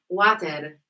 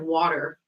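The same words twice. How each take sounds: First: It is said in a put-on foreign accent. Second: It is said in the speaker's plain accent.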